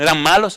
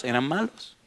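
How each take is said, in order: First: Said in the usual way. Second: "Eran malos" said much softer, almost under the breath; quiet answer. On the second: Shown as a demonstration. Preacher answers his own question to the church, much softer.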